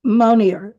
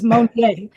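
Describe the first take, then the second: First: Monier echoed English-style, ending in "-eer"; anglicized pronunciation. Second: Monier as a French speaker says it, ending in "-ay"; French pronunciation. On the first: Shown as a demonstration. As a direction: repeat Monier as "moh-neer", r sounded. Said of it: "so we pronounce it Monier". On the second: Retold or imitated. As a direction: say Monier slowly as "moh-nay", silent r. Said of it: "I got a French husband".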